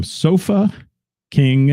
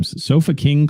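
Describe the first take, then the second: First: SOFA, pause, then KING, each set apart; deliberately slow. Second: Said in the usual way. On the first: Shown as a demonstration. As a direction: say Sofa and King slowly as two separate words. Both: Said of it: "I have to say that slow".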